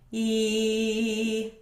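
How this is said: The voice is open and free, like withheld laughter. "retracting your false vocal folds"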